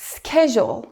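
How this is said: It is said in an American accent. "In the U S, it's schedule"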